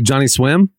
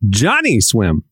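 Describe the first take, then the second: First: The stress does not fall strongly on Johnny. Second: The stress falls strongly on Johnny.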